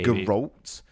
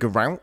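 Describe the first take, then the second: First: The second vowel sounds more like O. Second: The second vowel sounds more like A. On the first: "there was more of an O instead of an A" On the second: "instead of"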